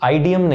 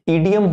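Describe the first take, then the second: First: The word begins with an 'eye' vowel. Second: The word begins with a short 'ih' vowel. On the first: The speaker calls it wrong. "आइडियम नहीं" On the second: The speaker calls it right. "इसकी सही pronunciation इडियम होती है"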